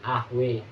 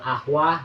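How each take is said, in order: First: The final vowel is tilted toward an e sound. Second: The final vowel is an open a sound. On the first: "Dibaca imalah" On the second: "bunyi awal"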